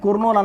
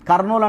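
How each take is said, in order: First: The first syllable is said as 'kur'. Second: The first syllable is said as 'kar'. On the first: This follows the written spelling, but nobody says it. "కుర్నూలు అనట్లేదు" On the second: This is how people actually say the name. "కర్నూలు అంటాం"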